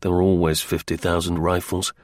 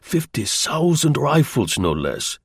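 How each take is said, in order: First: Said in the usual way. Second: Put-on slow German-accented announcement, pitched up then dropping; impressive German agent. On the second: German agent selling his rifle story, slow and accented. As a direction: pronounce the figure slowly, with German accent.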